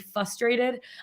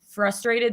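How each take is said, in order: First: The R after the F is left out. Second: The R after the F is clearly pronounced. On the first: The speaker calls it wrong. "they say frustrated. I'm like, it's F R" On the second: The speaker calls it right. "instead of saying frustrated"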